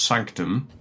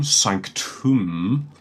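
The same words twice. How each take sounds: First: Said in the usual way. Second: Sanctum with a long "oo" in the last syllable; sanctum ending in "tomb". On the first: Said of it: "rather than just sanctum". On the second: Shown as a demonstration. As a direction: say the end of sanctum like the word "tomb". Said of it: "chose to say it as tomb".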